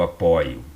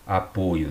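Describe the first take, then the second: First: The verb "apoio", OY opened as in "joia"; "apoio" with stressed O like English "aw". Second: The noun "Apoio", rounded close OY; "Apoio" with stressed O as in "boi"; closed O in Apoio. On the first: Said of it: "O mesmo verbo". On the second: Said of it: "igual a o substantivo". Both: Shown as a demonstration.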